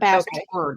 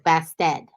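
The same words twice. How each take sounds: First: It is said plainly, with the R sounded. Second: It is said Boston-style, with the R dropped.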